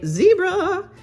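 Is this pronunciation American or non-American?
American. It is said the American way.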